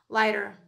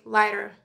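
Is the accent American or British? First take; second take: American; American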